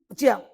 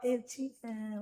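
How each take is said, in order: First: It is said firmly and curtly. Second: It is said softly and tenderly.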